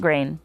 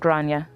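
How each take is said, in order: First: The name sounds like the word 'grain'. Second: The name sounds like 'Gronia'. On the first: The speaker calls it wrong. "not Grain" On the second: The speaker calls it right. "Generally pronounced as Gronia"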